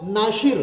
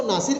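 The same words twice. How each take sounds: First: "नाशिर" with a clear sh sound in place of s; Japanese way of saying it. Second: Said in the usual way. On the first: Shown as a demonstration. Teacher shows students how Japanese speakers say "नाशिर" with sh. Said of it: "उनसे ये नाम pronounce होगा". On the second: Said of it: "लेकिन Japanese तो नासिर नहीं पढ़ते".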